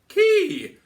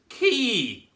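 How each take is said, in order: First: The vowel sounds relaxed and lifted. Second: The vowel sounds tense and spread. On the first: The speaker calls it right. "feel that sense of lift and dome" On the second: The speaker calls it wrong. "where it's getting really tense and things are spreading"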